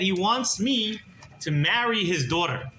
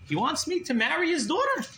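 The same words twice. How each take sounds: First: Said in the usual way. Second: High-pitched disbelieving question; incredulous echo. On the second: Retold or imitated. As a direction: repeat it as astonished question, rising.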